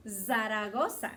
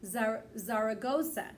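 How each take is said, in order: First: "Zaragoza" with a Spanish tapped r, zah-rah-GO-sah; Spanish accent. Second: "Zaragoza" anglicized, ZAR-uh-GO-zuh with an English r; English "Zaragoza" with a hard American r; English pronunciation. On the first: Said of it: "saying it a little with the Spanish accent". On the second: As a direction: say "Zar-, Zaragoza" the English way, broad r and reduced vowels. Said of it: "If we say it in English". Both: Shown as a demonstration.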